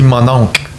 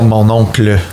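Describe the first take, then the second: First: The word ends short, with the final sounds cut. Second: The word ends with its full final sounds. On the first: "Nous, on dit mon oncle" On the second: "On dit pas mon oncle"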